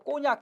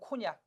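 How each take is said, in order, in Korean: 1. 첫 자음은 된소리입니다. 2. 첫 자음은 거센소리입니다.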